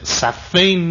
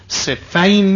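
First: The word is said as saffayn, with a dual ending. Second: The word is said as siffin, rhyming with sikkin. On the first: It would mean two facing rows. The speaker calls it wrong. "صفین نیست" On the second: It is the name of a place. The speaker calls it right. "این صفینه، علاوزن سکین"

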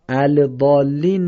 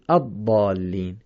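First: The 'l' sound is pronounced before the consonant. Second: The 'l' sound is silent before the consonant. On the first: The speaker calls it wrong. "الضالین نمیگیم" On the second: The speaker calls it right. "چرا این لام رو نخوندیم؟"

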